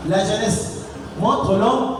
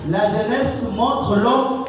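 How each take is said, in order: Both takes have the same delivery.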